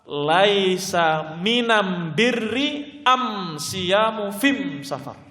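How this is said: The article is pronounced am throughout. This is a weak, unauthentic wording. The speaker calls it wrong. "riwayat yang tersebar ketika itu dengan lafadz"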